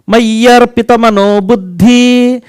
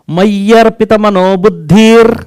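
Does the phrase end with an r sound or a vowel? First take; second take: vowel; r sound. First: The phrase ends on a vowel without r. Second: The phrase ends with a final r sound. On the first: The speaker calls it wrong. "now I am uttering the wrongs uh, wrongly" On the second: The speaker calls it right. "You told like this, ... Then you are correct"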